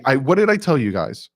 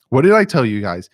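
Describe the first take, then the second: First: Said in the usual way. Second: Louder repeat punching I; stress on I. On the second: Real, not acted. Gloating to his viewers, louder stress on I. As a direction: hit I harder the second time.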